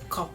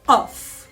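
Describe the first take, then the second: First: It starts with a light, ordinary k sound. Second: It starts with a deep stop far back. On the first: The speaker calls it wrong. "read it little lighter and they read it as K" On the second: The speaker calls it right. "The letter Qaf comes exactly at the end of the tongue, beginning of the throat"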